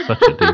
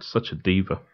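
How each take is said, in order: First: Squealed much higher, mocking a diva; a camp shriek of mock outrage. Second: Said in the usual way. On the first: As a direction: tease her in a shrill camp squeal.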